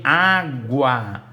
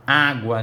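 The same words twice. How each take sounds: First: "água" loud and split, A... GUA; U pronunciado. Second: Said in the usual way. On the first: Shown as a demonstration. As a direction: sound out "água" with a clear GW. ("água" silabado, com o U audível) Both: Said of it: "eu ouço o som do U".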